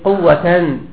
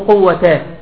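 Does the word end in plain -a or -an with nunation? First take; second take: -an; plain -a. First: The word ends in -an, with nunation. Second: The word ends in plain -a, without nunation. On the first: The noun is joined to the accusative form of the first noun. "الصورة الثانية لا حول ولا قوة، قوة مو قوة، بلي لا على اللفظ" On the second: The noun is built on fatha after the negating la. "مو قوة"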